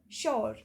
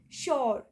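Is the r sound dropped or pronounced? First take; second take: pronounced; pronounced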